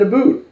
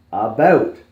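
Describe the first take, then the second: First: "a boot" with a long oo, high and loud; mock the word about as "a boot". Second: "About" with an open ow diphthong, insistent; pronouncing "About" properly. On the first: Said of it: "You just said a boot". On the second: Retold or imitated. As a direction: say "About" loudly and clearly, ow as in out. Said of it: "No, you said a boot".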